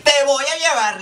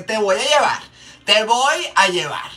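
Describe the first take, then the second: First: High, mock-stern warning; mock threatening mom. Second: Mock threatening mom voice. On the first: Makeup artist voicing the mom warning the child, high and mock-stern. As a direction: play the mom scaring the kid. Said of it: "yo me pongo en el papel". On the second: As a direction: stretch out the threat like a scary mom. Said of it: "esa voz de que".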